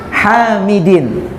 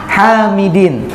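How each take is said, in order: Both takes have the same delivery.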